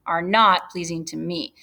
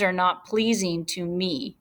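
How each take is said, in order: First: "not" picked out with emphasis; stress on not. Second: Said in the usual way. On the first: Shown as a demonstration. Teacher pointing out the negative to students, stress on "not". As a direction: repeat it, leaning on the word "not".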